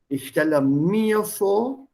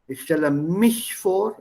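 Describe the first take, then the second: First: Slow, mir stressed with a rising end. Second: Said in the usual way. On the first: Shown as a demonstration. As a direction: lean on mir, slowly.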